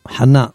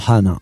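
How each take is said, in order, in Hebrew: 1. ההטעמה היא על ההברה האחרונה. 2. ההטעמה היא על ההברה הראשונה. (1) "חנה מלרע" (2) "לא חנה"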